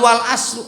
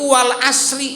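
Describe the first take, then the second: First: The last word ends with an 'oo' vowel. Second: The last word ends with an 'ee' vowel. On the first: The speaker calls it wrong. "enggak wal asru" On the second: The speaker calls it right. "Makanya logatnya itu wal asri"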